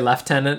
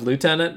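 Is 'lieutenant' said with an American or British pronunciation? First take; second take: British; American. First: It is said the British way, like 'leftenant'. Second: It is said the American way, like 'lootenant'. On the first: "I appreciate that they allowed him to say lieutenant" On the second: "instead of lieutenant"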